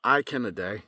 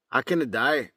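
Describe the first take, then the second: First: Irish accent. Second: Scottish accent. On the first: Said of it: "Now from Ireland". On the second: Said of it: "Now as if I'm Scottish". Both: Shown as a demonstration.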